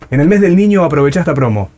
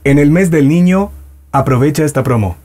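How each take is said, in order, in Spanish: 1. Se dice con un acento español regional. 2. Se dice con un acento español neutro.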